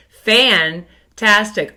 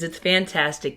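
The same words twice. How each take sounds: First: Fantastic stretched slow and louder, like a class cheer; drawn-out cheer. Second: Said in the usual way. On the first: Shown as a demonstration. Teacher leading the class fan cheer, slow and emphatic. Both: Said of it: "Get your fans ready".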